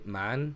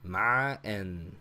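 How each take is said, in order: First: The word is said smoothly without a guttural sound. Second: A deep guttural throat sound splits the word. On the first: "they don't seem to put too much emphasis on the guttural sound" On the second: "I'm doing kind of the deep guttural throat thing"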